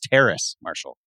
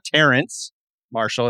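First: The first name ends without an n-sound. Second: The first name ends with an n-sound. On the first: The speaker calls it right. "it's Terrace Marshall" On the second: The speaker calls it wrong. "it's not Terrence Marshall"

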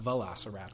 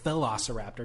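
First: The name begins with a 'veloci' sound. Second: The name begins with a 'philo' sound. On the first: The speaker calls it wrong. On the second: The speaker calls it right. "the first half looks like Philosopher. It's P-H-I-L"

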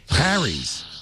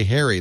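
First: The first vowel sounds like in 'hat'. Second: The first vowel sounds like in 'hairy'. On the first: The speaker calls it right. "You should say Harry's" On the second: The speaker calls it wrong. "you shouldn't say Harry like somebody's got a hairy face"

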